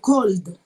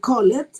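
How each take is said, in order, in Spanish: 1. La terminación es un sonido 'd' corto. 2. La terminación se pronuncia como una sílaba 'ed' separada. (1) "yo esa ed la voy a pronunciar como una D" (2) "en lugar de decir called"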